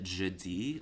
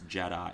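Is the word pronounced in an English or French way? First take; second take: French; English. First: The word is pronounced with French sounds. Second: The word is pronounced with English sounds. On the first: The speaker calls it wrong. "I pronounced it jeudi, like, in the French way" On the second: The speaker calls it right. "it's an American pronunciation, it's English, it's Jedi"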